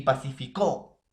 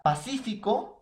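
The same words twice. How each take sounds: First: "pacificó" con el golpe en la CÓ final; acento agudo. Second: "pacífico" con el golpe en CÍ; acento esdrújulo. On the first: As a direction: di pa-ci-fi-CÓ cargando la última sílaba. ("pacificó" acentuado en la última sílaba) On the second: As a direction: marca pa-CÍ-fi-co. ("pacífico" acentuado en la antepenúltima sílaba) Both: Shown as a demonstration. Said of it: "es un parónimo por el acento".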